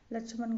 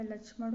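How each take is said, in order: First: लक्ष्मण ending in dental n; wrong pronunciation. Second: लक्ष्मण ending in retroflex ṛ-like ण; correct pronunciation. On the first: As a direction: close लक्ष्मण with a plain n. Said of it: "लक्ष्मण गलत है". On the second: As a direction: curl the tongue on the last sound of लक्ष्मण. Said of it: "लक्ष्मण होगा". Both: Shown as a demonstration.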